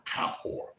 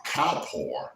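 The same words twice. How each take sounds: First: "Kippur" whispered, voiceless and soft. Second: Said in the usual way. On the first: Shown as a demonstration. Preacher repeating the word Kippur, whispered.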